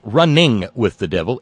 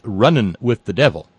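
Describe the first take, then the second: First: Running is said with a full -ing ending. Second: Running is said with the g dropped. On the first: The speaker calls it wrong. "It isn't" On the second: The speaker calls it right.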